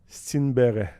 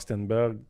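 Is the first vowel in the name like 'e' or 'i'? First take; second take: i; e. First: The first vowel sounds like 'i'. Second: The first vowel sounds like 'e'. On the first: This is the name's original form. The speaker calls it right. "Parce qu'on devrait dire" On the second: This is how it will be said in the league. The speaker calls it wrong. "c'est pas de même que ça se prononce"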